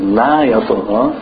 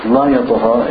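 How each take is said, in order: First: LA YATAGHA with a stretched front "laa"; long negative la. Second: LA YATAGHA with a brief first vowel; short emphatic la. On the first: Teacher explaining "does not rebel", long la in la yatagha. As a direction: lengthen the la before yatagha. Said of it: "la means no". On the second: Teacher explaining "definitely rebellious", short la in la yatagha. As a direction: keep the la short before yatagha. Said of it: "And la, it means emphatic". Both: Shown as a demonstration.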